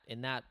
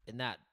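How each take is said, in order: Both takes have the same delivery.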